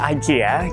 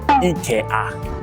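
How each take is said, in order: First: It is pronounced with English sounds. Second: It is pronounced with Japanese sounds.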